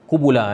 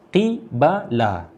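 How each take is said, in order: First: The word is said with u vowels, qubula. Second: The word is said with i and a vowels, qibala. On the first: "kita semua membaca qubula" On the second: "ramai ulama lain qiraat yang baca qibala"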